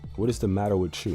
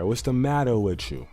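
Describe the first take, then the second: First: It is said in a plain, ordinary accent. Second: It is said in a put-on mock Italian accent.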